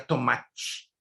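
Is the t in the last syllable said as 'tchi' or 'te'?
tchi. The final t sounds like 'tchi', Rio style.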